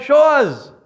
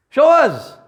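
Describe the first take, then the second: First: Louder, higher demand; demanding shout. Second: Louder, higher demand again; demanding shout. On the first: People challenging the prophets, a loud high demand. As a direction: fling the challenge out. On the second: People repeating their challenge to the prophets, loud and high. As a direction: hurl the challenge. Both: Acted.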